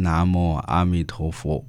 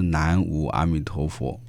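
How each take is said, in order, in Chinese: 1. 南无读的是梵语来源的读音。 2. 南无读的是汉字的普通读音。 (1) "那应该念南无阿弥陀佛" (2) "不是南无阿弥陀佛"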